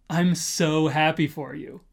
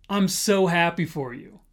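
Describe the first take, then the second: The two takes are said the same way.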